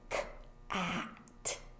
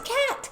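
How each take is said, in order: First: The word is stretched out very slowly. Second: The word is said quickly at normal speed. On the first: "a word really slowly" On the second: "then you say it fast"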